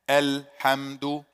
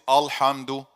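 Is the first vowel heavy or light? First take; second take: light; heavy. First: The first vowel is light, tongue relaxed low. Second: The first vowel is heavy, tongue arched up. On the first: The speaker calls it right. "No, it's ah" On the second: The speaker calls it wrong. "I made ah when it's supposed to be light"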